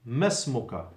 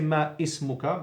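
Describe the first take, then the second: First: The two words run together into one word. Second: The two words are said separately, with a catch. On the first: The speaker calls it right. "it's not pronounced. So you go straight to the scene" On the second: The speaker calls it wrong. "Don't say ma ismuka"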